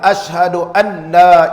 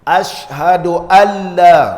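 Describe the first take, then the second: First: The n is pronounced separately before the l. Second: The n merges into the l, without nasal sound. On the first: The speaker calls it wrong. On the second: The speaker calls it right. "al kena idgham bila gunnah"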